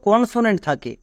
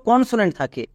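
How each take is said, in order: Both takes have the same delivery.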